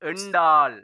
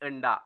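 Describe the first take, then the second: First: The word is said in a partly reduced form. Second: The word is said in a fully reduced form.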